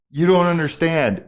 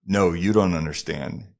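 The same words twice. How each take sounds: First: Loud, high insistence; worked-up insistence. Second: Calm retort. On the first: Excited model to the driver, worked-up insistence. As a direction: insist loudly, pitch raised. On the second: Driver tops the model's story, calm retort. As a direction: answer evenly, without raising the voice. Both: Retold or imitated.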